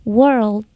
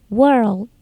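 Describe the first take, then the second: No difference in how they are said.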